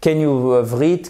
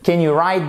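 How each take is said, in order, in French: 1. Le W au début de write est prononcé. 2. Le W au début de write est muet. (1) "C'est franchement, c'est pas bon" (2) "On ne prononce pas le W"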